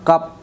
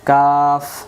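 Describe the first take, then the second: First: The word ends in a closed p sound. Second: The word ends in a breathy f sound. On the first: The speaker calls it wrong. "এমন না" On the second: The speaker calls it right. "বাতাস বেরোবে"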